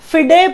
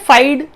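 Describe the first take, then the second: First: It is said as two syllables, 'fee-day'. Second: It is said as one syllable, 'fide'. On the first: The speaker calls it right. "फिडे पढ़ते हैं इसे" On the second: The speaker calls it wrong. "फाइड नहीं पढ़ते हैं"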